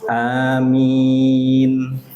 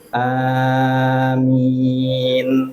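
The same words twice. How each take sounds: First: The first vowel is short, the second long. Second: Both vowels are drawn out long. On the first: "A-nya dua harokat, min-nya yang panjang" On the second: "Panjang semua ya. A-nya panjang, min-nya panjang"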